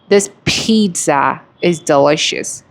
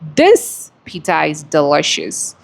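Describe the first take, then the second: First: The word 'pizza' carries the main stress. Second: The word 'this' carries the main stress. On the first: "You're stressing on the word pizza" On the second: "You're just pointing at this"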